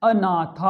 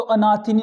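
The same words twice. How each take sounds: First: अनाथा with long ना and long था; correct form. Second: अनाथिनी at ordinary quick pace; wrong form. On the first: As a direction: draw out both long vowels of अनाथा. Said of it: "अब शुद्ध बोले ना". (अनाथा का शुद्ध उच्चारण, खींचकर) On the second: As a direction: say अनाथिनी briskly, nothing stretched. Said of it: "नहीं होता बच्चों". (अनाथिनी, अशुद्ध रूप, सामान्य गति में) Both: Shown as a demonstration.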